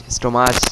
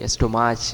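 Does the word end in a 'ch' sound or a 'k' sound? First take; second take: ch; ch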